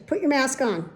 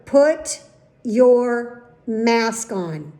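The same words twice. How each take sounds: First: Said in the usual way. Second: Loud "Put your mask on", word by word; emphatic order. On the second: Retold or imitated. Patient cuts off old man's excuse, emphatic word-by-word order. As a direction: stretch "Put", "your", "mask on" slowly with pauses, loudly.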